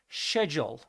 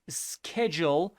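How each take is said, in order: First: The word is said in a British accent. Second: The word is said in an American accent. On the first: "In British English, they call it schedule" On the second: "In American English, they call it schedule"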